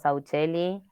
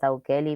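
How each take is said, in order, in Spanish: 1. La consonante del medio es un sonido ch. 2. La consonante del medio es un sonido k. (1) "está argentinizado. Yo le digo Sauchelli" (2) "En teoría sería Saukeli"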